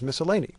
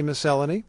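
First: The word is pronounced the American way. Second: The word is pronounced the British way. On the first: "the American pronunciation is" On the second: "in Britain, they say"

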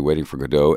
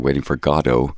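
First: Godot is said the American way. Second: Godot is said the British way. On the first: "Americans tend to say Waiting for Godot" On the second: "Brits and Irish people tend to say Waiting for Godot"

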